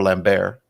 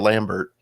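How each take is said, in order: First: The name is pronounced the French way. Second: The name is pronounced the English way.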